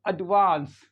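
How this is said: It has a long open 'ah' as in father.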